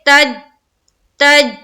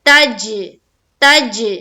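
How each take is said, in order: First: The final J stops flat without an echo. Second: The final J bounces with an echoing release. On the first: The speaker calls it wrong. "तो गलत है" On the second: The speaker calls it right. "हमें यहां पर echo sound आना चाहिए"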